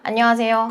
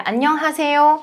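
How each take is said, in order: First: The h sound is weak, nearly dropped. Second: The h sound is pronounced clearly. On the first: The speaker calls it wrong. "실제로는 안녕하세요. ... 아세요로 하단 말이에요" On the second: The speaker calls it right. "이렇게 히읗만 잘 발음을 해줘도"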